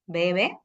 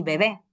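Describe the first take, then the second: First: "Bebe" stressed BE-be; stress on first syllable. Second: "bebé" stressed be-BÉ; stress on last syllable. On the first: Teacher contrasting words by accent, first-syllable stress on "Bebe". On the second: Teacher contrasting words by accent, final stress on "bebé". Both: Shown as a demonstration. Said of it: "Puedes distinguir palabras".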